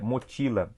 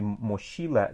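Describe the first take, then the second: First: The word is pronounced the Spanish way. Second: The word is pronounced the Portuguese way.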